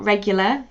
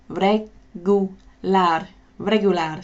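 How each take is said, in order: First: Regular said the English way. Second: Regular slowly with a rolled Spanish R, "re-goo-LAR"; Spanish accent. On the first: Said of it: "So not regular". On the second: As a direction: regular in a Spanish accent, stress on the last syllable. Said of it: "a Spanish accent". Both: Shown as a demonstration.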